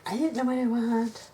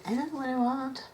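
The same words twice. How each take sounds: First: Mock whiny indecision. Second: Higher, put-on whine quoting herself; mock whiny indecision. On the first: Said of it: "I don't wanna spend my whole video going". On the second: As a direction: mimic your own dithering, lightly. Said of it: "I'm sitting here spending my whole video going".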